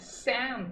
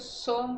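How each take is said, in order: First: The vowel sounds like an open 'a'. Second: The vowel sounds like a rounded 'o'. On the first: "सैम सा कर रहे हो तो एक ए की आवाज आ रही है" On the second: "सोम बोल रहे हो तो सो सो सो की आवाज आ रही है"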